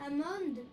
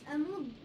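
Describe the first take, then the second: The two takes are said the same way.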